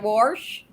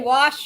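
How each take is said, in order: First: The word is said with an r sound. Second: The word is said without an r sound. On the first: This is how people there say it. "You say warsh" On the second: This is not how people there say it. "so you don't say wash over there"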